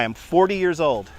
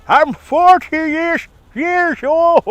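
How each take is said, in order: First: Said in the usual way. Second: High, drawn-out mock cry; playful high-pitched lament; hammed-up wail. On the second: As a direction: stretch it out high in comic dismay. Mock repeat of own age.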